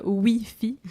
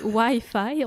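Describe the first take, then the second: First: Slow "Wi-Fi" as wee-fee; French pronunciation. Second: Slow, deliberate "Wi-Fi" as why-fye; English pronunciation. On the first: Quebecer rejects the Parisian version, slow "Wi-Fi" as wee-fee. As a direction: rhyme both halves of "Wi-Fi" with French "oui", drawn out. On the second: Quebecer corrects the Parisians, slow "Wi-Fi" as why-fye. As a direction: insist on "Wi-Fi" with two "eye" sounds. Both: Shown as a demonstration. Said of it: "on dit pas Wi-Fi".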